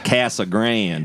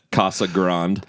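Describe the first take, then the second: First: Slow Casa Grande as CASS-a GRAND; local pronunciation. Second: Casa Grande as KAH-sa GRAHND; out-of-towner pronunciation. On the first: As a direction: draw out the flat A in Casa Grande. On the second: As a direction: open AH vowels in Casa Grande. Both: Shown as a demonstration. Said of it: "That's how you say it".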